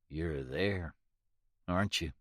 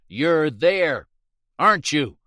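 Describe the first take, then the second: First: It is said quietly. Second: It is yelled loudly.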